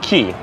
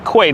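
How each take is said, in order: First: The word sounds like 'key', not 'kway'. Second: The word sounds like 'kway', not 'key'. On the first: This is how the name is pronounced. "It's pronounced Queen's Key" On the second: Some people still say it this way. "They call it quay, not key"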